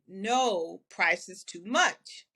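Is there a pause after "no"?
yes. There is a pause after "no".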